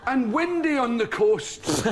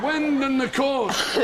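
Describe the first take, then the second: First: Slow, drawn-out weather forecast voice; mock weatherman. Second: Slow, laughing wonder at the wind; mock weatherman. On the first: The comedian mocking a TV weatherman, slow and solemn. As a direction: mimic a dull weatherman, stretching it out. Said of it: "he says". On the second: Telling the host how his father showed him the wind, slow and amused. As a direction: drag out the words as if it's a marvel. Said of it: "This is something you should see".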